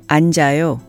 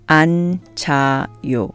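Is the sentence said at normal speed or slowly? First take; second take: normal speed; slowly. First: It is said at a natural speed. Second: It is said slowly and carefully. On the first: "and then at a more natural speed" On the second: "I'll say the negative sentence slowly first"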